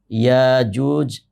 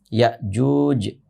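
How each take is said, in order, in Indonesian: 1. Tidak ada hentian glotal yang menutup suku kata pertama. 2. Hentian glotal menutup suku kata pertama. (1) "ada qiraat yang lain dibacanya" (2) "membacanya dengan hamzah yang disukunkan"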